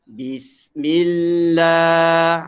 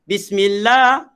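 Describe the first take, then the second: First: The word is recited slowly and drawn out. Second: The word is recited quickly. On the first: "Kalau lambat" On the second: "Kalau laju"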